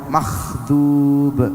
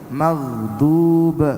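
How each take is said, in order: First: The first consonant is a voiceless kh sound. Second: The first consonant is a voiced gh sound. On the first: The speaker calls it wrong. "ghainnya dibaca kha" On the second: The speaker calls it right. "yang seharusnya dibaca ghain"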